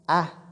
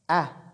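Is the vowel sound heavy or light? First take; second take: light; light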